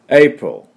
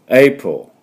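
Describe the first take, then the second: No difference in how they are said.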